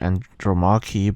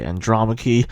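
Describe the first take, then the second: First: The name is pronounced the Greek way. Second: The name is pronounced the English way. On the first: This is how Greek speakers say it. "I've heard that Greek people say Andromache" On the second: This is how English speakers say it. "English people say Andromache"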